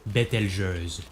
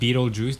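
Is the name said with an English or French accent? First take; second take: French; English. First: It is said with a French accent. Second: It is said with an English accent.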